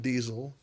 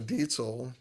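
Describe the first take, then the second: First: The middle consonant is a buzzing z sound. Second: The middle consonant is a sharp ts sound. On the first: The speaker calls it wrong. "not Diesel" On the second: The speaker calls it right. "the Z sound in German is a T S. Um, so Dietzel"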